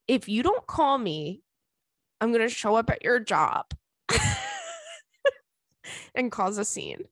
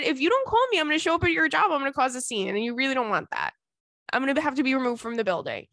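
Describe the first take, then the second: First: Joking threat. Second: High-starting mock warning that settles down; joking threat. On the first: Retold or imitated. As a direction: warn him in measured pieces, then crack up. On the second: Woman retelling her warning to her crush, run-on mock threat. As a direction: rattle off a playful threat without stopping. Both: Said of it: "I threatened him".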